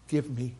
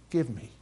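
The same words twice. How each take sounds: The two takes are said the same way.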